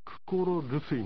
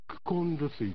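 First: The first word ends in an r sound. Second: The first word ends in an n sound. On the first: "これ元の形はですね、クコロルスイなんですよ" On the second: "コロとルスイがくっつくとクコンルスイというふうに発音がされるんですね"

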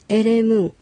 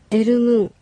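First: The middle syllable is 're'. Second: The middle syllable is 'ru'.

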